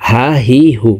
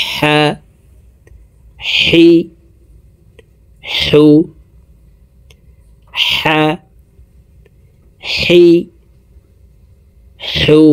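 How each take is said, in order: First: "হা, হি, হু" with a light plain h, run together; small ha. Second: "হা, হি, হু" each with strong friction from mid-throat. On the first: Teacher shows the common mistake, "হা, হি, হু" with the light small h. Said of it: "এটি ছোট হার উচ্চারণ করে থাকি". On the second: Teacher models the correct ha for viewers, "হা, হি, হু" with mid-throat friction, separately. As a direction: push a long constricted h out before each of "হা, হি, হু". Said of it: "হলকের মধ্যখান থেকে". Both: Shown as a demonstration.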